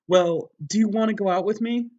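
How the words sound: It is said in a girly voice.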